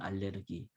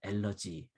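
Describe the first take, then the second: First: It is pronounced in the German way, al-ler-gi. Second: It is pronounced in the American way, al-ler-gy. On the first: "독일 발음으로는" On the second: "미국식으로 얘기하면"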